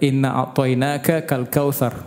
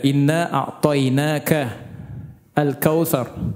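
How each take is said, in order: First: An extra k sound comes before al-kautsar. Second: No k sound comes before al-kautsar. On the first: The speaker calls it wrong. "Dia tambahkan huruf K depan al-kautsar. Karena saking cepatnya dibaca" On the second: The speaker calls it right. "padahal tidak ada ini"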